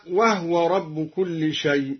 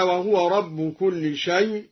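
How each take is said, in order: First: وهو said wahwa, with a sukun on the ه; silent ha in وهو. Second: Said in the usual way. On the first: Shown as a demonstration. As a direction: clip the vowel off the ha in وهو. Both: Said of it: "سكن الهاء".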